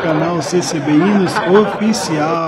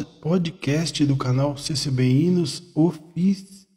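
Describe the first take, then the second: First: Slow, laughing through the name. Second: Choking on the words; speaking while choking up; engasgando. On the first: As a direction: get it out while laughing. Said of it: "Até que enfim saiu". (rindo, devagar) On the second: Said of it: "nossa, engasguei tudo". (engasgado, voz travando) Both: Real, not acted.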